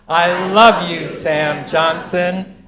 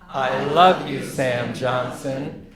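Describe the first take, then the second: First: It is said at the loudest volume. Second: It is said louder than before.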